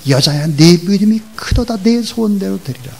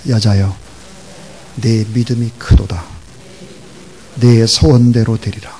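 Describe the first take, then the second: First: Higher, loud, continuous rising exclamation; rousing praise. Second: Loud, measured declaration in separate phrases; solemn lead for repetition. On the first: Acted. Jesus praises the woman's great faith, rousing exclamation. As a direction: build the praise upward with force. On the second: Shown as a demonstration. Preacher leads congregation repeating Jesus' words, solemn declaration. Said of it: "따라하세요".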